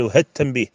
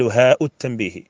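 First: "ها التنبيه" linked as one word, no glottal stop; joined pronunciation. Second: Long aa in "هاء", then a glottal stop and u before "التنبيه"; "هاء التنبيه" with the hamza fully sounded; incorrect separated pronunciation. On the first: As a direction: say "ها التنبيه" run together as hat-tanbih. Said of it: "وكما قلنا يقال". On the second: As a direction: say "هاء التنبيه" as haa'u t-tanbihi. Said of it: "ولا يقال". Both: Shown as a demonstration.

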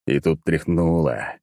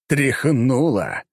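First: Said in the usual way. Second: «Тряхнуло» drawn out slowly, higher and with force; dramatic jolt. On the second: Shown as a demonstration. Narrator redoes the jolt with heavy drawn-out emphasis. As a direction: stretch «Тряхнуло» to make the jolt felt. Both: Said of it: "Нет, не так".

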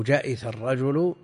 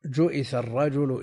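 First: جئث as "ja'itha", a on the jim; فتح الجيم. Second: جئث as "ju'itha", u on the jim; ضم الجيم. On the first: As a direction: say جئث with fatha on the jim, kasra on the hamza. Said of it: "أو جئث الرجل". (نطق «جئث» بفتح الجيم وكسر الهمزة) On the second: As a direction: say جئث with damma on the jim, kasra on the hamza. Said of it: "بضم الجيم وكسر". (نطق «جئث» بضم الجيم وكسر الهمزة) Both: Shown as a demonstration.

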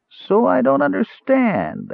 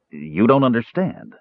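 First: High, slow sneering echo of his words; mocking snarl. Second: Said in the usual way. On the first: Dwarf mocks Caramon's protest, high slow snarl. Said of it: "Arak snarled".

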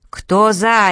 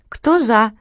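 First: Loud barked demand; barking. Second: Said in the usual way. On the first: A narrator's reading. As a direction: bark it so ears ring. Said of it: "рявкнула Васса". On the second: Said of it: "спросила Лена".

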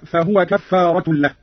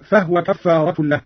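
First: Said in the usual way. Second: فهو with sukun on the ه; vowelless ha. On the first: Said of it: "قرأ قالون بإسكان الهاء". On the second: Shown as a demonstration. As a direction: say فهو as "fahwa", not "fahuwa". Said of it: "بإسكان الهاء هكذا".

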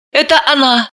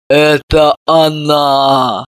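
First: Said in the usual way. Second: Slow, low, heavy tragic cry; tragic exclamation. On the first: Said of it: "Все бледнели и причитали". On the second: A narrator's reading. Mother coming round, declaring the culprit tragically and slowly. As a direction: drag it out like a stage tragedy. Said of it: "трагически воскликнула".

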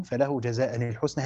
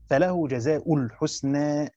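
First: جزاء read with nunation, jaza'an, linked into الحسنى; tanween reading. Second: جزاء read slowly as jaza'u, no nunation, joined to الحسنى; damma and idafa reading. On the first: Teacher showing students the first Quran reading with جزاء as jaza'an. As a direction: say جزاء ending in -an, run it into al-husna. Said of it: "فله جزاء بالتنوين". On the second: Teacher showing students the second reading, slow, جزاء as jaza'u. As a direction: end جزاء on -u and attach al-husna directly. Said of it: "هذه قراءة بالضم والإضافة". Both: Shown as a demonstration.

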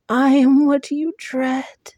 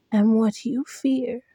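First: Higher, louder monster threat; louder hollow creature voice. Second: Hollow creature voice. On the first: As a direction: swell the threat into a roar. Monster repeats, growing louder. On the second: Monster repeats its threat. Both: Acted.

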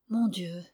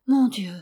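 First: A low, soft murmur of despair. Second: Said in the usual way. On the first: A narrator's reading. The grieving son murmuring at the café counter. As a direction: breathe it out, hand on brow. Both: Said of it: "il murmura".

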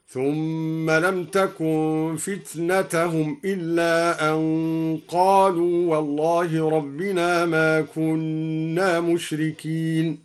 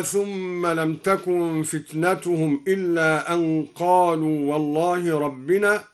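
First: فتنتهم with fatha, fitnatahum; Duri reading. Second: Said in the usual way. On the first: Shown as a demonstration. (بنصب فتنتهم) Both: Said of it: "قرأ الدوري بنصب فتنة هكذا".

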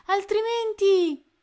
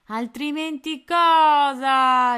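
First: Much higher, loud, slow "altrimenti" as a feeble threat; threatening shout. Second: Slow, loud "Altrimenti cosa?" leaning on cosa; mock him with a slow threat; menacing pirate. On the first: Tony threatens the pirates, high loud shout. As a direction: shout the threat without finishing it. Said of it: "gridò". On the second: Pirate mocks Tony's threat, slow and menacing. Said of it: "con aria minacciosa". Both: A narrator's reading.

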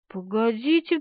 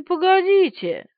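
First: Said in the usual way. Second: Погодите higher, louder, slower, falling; insist: погодите, drawn out; emphatic repeat. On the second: Acted.

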